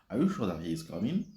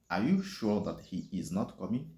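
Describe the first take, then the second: First: It is said fast, with some words swallowed. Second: It is said slowly, every word clearly separated. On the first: "je suis obligé d'avaler certains mots ou certaines expressions pour aller très rapidement" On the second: "je ralentis un peu pour que vous puissiez arriver à prononcer mot pour mot"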